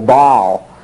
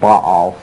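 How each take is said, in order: First: The name is said as one syllable. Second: The name is said as two syllables. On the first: "pronounced just as a single syllable" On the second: "we always pronounced it"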